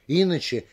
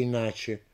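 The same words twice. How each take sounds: First: "иначе" stressed on И; stress on first syllable. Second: "иначе" stressed on НА; stress on middle syllable. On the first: Lecturer offering wavering variants, first-syllable "иначе". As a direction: hit the opening И in "иначе". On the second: Lecturer offering wavering variants, "иначе" stressed on НА. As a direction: move the beat to НА in "иначе". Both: Shown as a demonstration. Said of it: "как будет правильнее произнести".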